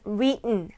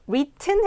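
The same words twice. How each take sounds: First: The middle t is swallowed, not released. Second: The middle t is clearly pronounced. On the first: "t가 먹는 발음" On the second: "해도 되지만"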